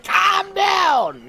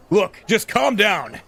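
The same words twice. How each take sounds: First: Full-throated shout, much higher and louder; scream. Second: Slow, louder, higher-pitched order to calm down; screaming on the phone. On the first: Shown as a demonstration. Streamer showing how the editor really screams it, full shout. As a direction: blast it out as the scream the line calls for. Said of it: "When you have to scream and be like". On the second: Acted. Editor yelling down the phone at his crying reporter, slow and loud. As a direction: force each word out at a frustrated colleague. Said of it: "practically screaming into his phone".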